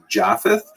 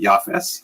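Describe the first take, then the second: First: It begins with J and ends with th. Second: It begins with Y and ends with s.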